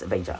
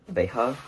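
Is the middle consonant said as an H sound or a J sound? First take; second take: J sound; H sound. First: The middle consonant sounds like a J. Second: The middle consonant sounds like an H. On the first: The speaker calls it right. "I think you actually pronounce the J" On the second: The speaker calls it wrong. "the J in Spanish is pronounced like an H. So I pronounce it Veja, even though I know that's not right"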